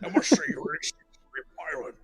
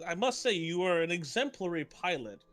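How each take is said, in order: First: The character voice is strongly exaggerated. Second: The character voice is mild, near his normal voice.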